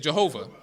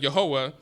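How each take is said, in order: First: The name begins with a J sound. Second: The name begins with a Y sound. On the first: "they pronounced words that begin with the letter Y as the letter J" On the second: "instead of Yehovah"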